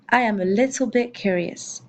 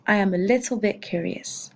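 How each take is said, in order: First: "I am a little bit curious" said in a careful English voice; teacher's first English take of "I am a little bit curious"; English model sentence. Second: "I am a little bit curious" repeated a little softer, falling at the end; teacher's quieter echo of "I am a little bit curious". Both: Shown as a demonstration. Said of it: "Ça me donne donc".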